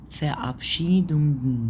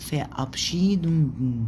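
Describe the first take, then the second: Both takes have the same delivery.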